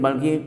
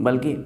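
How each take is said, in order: No difference in how they are said.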